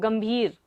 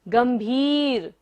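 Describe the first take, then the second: First: The vowel after 'bh' is short. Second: The vowel after 'bh' is long. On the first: The speaker calls it wrong. "हम सब लोग क्या पढ़ते हैं इसको, गंभीर नहीं" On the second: The speaker calls it right. "बड़ी की मात्रा है, तो इसको आपको लंबा लेना है"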